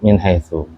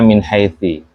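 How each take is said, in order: First: The last word ends with a 'u' vowel. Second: The last word ends with an 'i' vowel. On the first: The speaker calls it right. "tetap min haitsu" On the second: The speaker calls it wrong. "tidak mungkin dibaca min haitsi"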